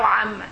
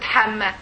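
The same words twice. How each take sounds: First: Amma, opening on a throaty ain and a doubled m; Amma, the correct throat onset. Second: Hamma, opening on a breathy h; Hamma, the mistaken h onset; wrong Hamma. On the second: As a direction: show the wrong Hamma with an airy h. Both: Shown as a demonstration. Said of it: "not Hamma".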